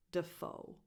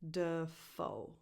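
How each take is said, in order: First: Said in the usual way. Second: "Dafoe" drawn out in two parts, duh... FOE; careful, stretched "Dafoe"; syllable demonstration. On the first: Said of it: "stress goes on the second syllable". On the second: Shown as a demonstration. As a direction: separate the syllables of "Dafoe", stress on the second. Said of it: "So the first syllable is".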